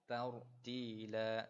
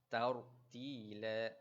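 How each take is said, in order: Both takes have the same delivery.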